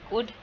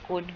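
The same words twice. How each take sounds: First: The word is said with a reduced vowel. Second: The word is said with a full vowel. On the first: "weak form" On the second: "strong form"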